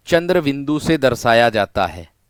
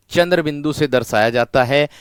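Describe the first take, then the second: No difference in how they are said.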